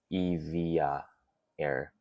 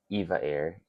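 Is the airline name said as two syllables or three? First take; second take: three; two. First: The name is said with three syllables, Evia. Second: The name Eva is said with two syllables.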